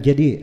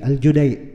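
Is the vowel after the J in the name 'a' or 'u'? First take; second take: a; u. First: The vowel after J is an 'a' sound. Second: The vowel after J is a 'u' sound. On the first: The speaker calls it wrong. "bukan Al-Jadi" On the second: The speaker calls it right. "nama orangnya Abdullah bin Yusuf Al-Judai"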